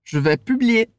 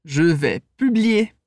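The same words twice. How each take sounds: First: "Je vais publier." at normal speed, flowing; a bit faster. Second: Slow, careful "Je vais publier."; slow model phrase. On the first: Teacher repeats the phrase faster for students to echo. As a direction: run "Je vais publier." together more quickly. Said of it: "um pouquinho mais rápido". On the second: Teacher models the phrase slowly for students to repeat. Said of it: "Vai lá, repete comigo". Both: Shown as a demonstration.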